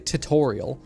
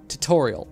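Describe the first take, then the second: First: The 'u' sound after the first t is pronounced. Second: The 'u' sound after the first t is skipped. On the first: "I don't say tutorial" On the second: "I just skip the U"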